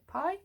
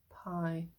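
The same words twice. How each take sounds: First: Pie? rising high as a question; questioning rise. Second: Pie. falling low and softer; settled fall. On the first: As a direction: ask Pie? puzzled, pitched up. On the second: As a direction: answer yourself with a low, soft Pie. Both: Shown as a demonstration. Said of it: "emphasis on the pie".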